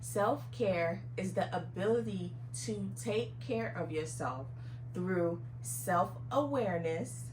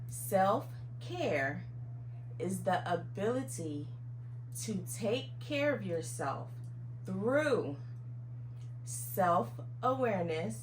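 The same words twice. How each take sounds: First: It is spoken at a normal pace. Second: It is spoken at a slower pace.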